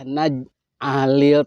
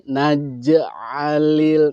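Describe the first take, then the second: First: The j sound is cut off without audible release. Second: The j sound is released with a clear bounce. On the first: The speaker calls it wrong. "tidak boleh naj alil tanpa bunyi" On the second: The speaker calls it right. "namanya qalqalah"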